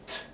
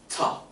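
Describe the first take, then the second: First: The bare consonant is said with no vowel. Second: An extra ah vowel follows the consonant. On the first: The speaker calls it right. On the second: The speaker calls it wrong.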